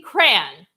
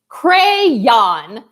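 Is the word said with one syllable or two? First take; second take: one; two. First: It is said as one syllable. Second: It has two syllables, stressing the last. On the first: The speaker calls it right. "one syllable" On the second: The speaker calls it wrong. "with two syllables and like really putting a lot of emphasis on the last syllable"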